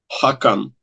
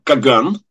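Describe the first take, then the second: First: The word begins with a breathy h sound. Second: The word begins with a hard k sound. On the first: This is the more authentic form of the title. The speaker calls it right. "а правильнее произносить, видимо, как «хакан»" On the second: This is the customary Russian form of the title. The speaker calls it wrong. "по-русски традиционно произносится как «каган»"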